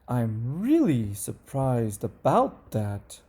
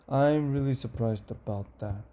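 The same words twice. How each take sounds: First: The pitch moves a lot and sounds excited. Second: The pitch stays level and sounds flat. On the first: The speaker feels strong emotion. "the excited one ... number one has the most change and changes" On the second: The speaker feels only weak emotion. "number two um, stays pretty much the same"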